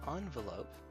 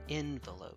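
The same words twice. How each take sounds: First: The first syllable sounds like 'on'. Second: The first syllable sounds like 'en'. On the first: The speaker calls it wrong. "if you say envelope, that's incorrect" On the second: The speaker calls it right. "It's usually envelope around here"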